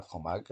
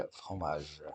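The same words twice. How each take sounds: First: "fromage" ending in a hard g; wrong pronunciation. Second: "fromage" ending in a soft g; correct pronunciation. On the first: Teacher showing pupils what not to say, "fromage" with final hard g. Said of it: "on dit pas". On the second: Teacher correcting the misreading for pupils, "fromage" with soft g. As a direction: say "fromage" with a final zh sound. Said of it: "on dit pas fromage". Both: Shown as a demonstration.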